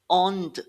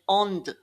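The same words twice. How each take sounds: The two takes are said the same way.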